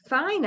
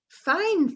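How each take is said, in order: First: It is said in an agreeing, affirming tone. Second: It is said in a cheerful, well-feeling tone. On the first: The speaker agrees. "I agree, yes" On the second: The speaker feels well. "means I feel well"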